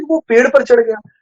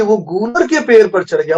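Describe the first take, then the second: First: Said in the usual way. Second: गूलर picked out as the key word; stress on गूलर. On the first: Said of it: "वो ये भी लिख सकता था". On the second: Shown as a demonstration. Preacher asks why the tree is named, stress on गूलर. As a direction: lean on the word गूलर, pitched up. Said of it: "क्यों जरूरी था गूलर".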